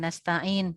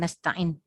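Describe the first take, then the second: First: The long vowel is held at full length. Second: The long vowel is cut short. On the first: The speaker calls it right. "ketika kita mengatakan" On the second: The speaker calls it wrong. "tiba-tiba dia kehilangan berapa harokat"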